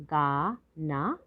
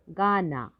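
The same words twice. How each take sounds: First: गाना slowly split as गा, ना; syllable by syllable. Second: Said in the usual way. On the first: Shown as a demonstration. Teacher sounding out गाना for learners, syllable by syllable. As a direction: stretch गाना into separate syllables. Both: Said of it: "तो शब्द पढ़ते हैं".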